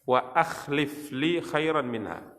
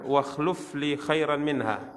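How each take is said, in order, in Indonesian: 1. Kata kerja itu dibaca dengan bunyi i, seperti akhlif. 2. Kata kerja itu dibaca dengan bunyi u, seperti khluf. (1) "Yang benar" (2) "kita baca kemarin"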